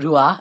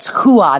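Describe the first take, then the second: First: The name begins with an R sound. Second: The name begins with an H sound. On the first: The speaker calls it wrong. "not Rua" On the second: The speaker calls it right. "that's why it's like it's Hua"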